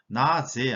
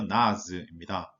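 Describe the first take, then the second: First: The final vowel is a full 'eh' sound. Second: The final vowel is a light, weak 'uh'. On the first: The speaker calls it wrong. "나제 아니고요" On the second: The speaker calls it right.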